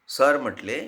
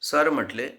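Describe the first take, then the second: Both takes have the same delivery.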